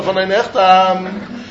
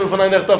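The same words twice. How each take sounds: First: Von ein Echtam drawn out slowly, each word stressed; slow, spelled out. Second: Said in the usual way. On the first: Shown as a demonstration. Teacher spelling out the phrase for students, slow. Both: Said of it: "you have to say".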